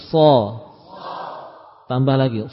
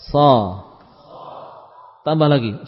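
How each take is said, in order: The two takes are said the same way.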